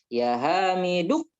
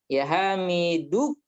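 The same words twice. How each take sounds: No difference in how they are said.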